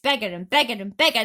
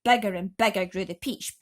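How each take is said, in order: First: "bigger and bigger and bigger" faster and louder; faster louder repeat. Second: "bigger" growing louder each time; building bigger. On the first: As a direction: rush the repeated "bigger" building up. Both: A narrator's reading.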